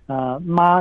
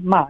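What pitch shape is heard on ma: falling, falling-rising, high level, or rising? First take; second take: high level; falling. First: The pitch stays high and level. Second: The pitch falls sharply from high to low. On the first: "ma is the first tone" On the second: "and then ma is the fourth tone"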